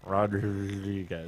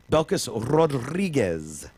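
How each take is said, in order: First: Rodriguez with a rolled Spanish r, slowly. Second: Belkis Rodriguez with a trilled Spanish r; rolled r. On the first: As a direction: trill the r in Rodriguez, drawn out. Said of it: "He's been working on the rolling R's". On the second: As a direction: roll the r in Rodriguez slowly. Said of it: "E, can you say her name?". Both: Shown as a demonstration.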